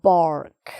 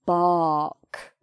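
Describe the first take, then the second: First: "bark" in an American accent with a strong R before the K; punchy American-style "bark" with hard R. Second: "bark" with a long open "ah" and silent R; non-rhotic British "bark", no R at all; British open vowel. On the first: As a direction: demonstrate American "bark", R fully sounded. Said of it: "an American person might say". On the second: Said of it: "but a British person just says an R sound". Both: Shown as a demonstration.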